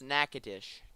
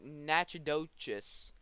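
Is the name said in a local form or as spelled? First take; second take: local form; as spelled. First: The name is said in its local form. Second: The name is sounded out as it is spelled. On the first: The speaker calls it right. "but it's Natchitoches" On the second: The speaker calls it wrong. "It looks like Natchitoches"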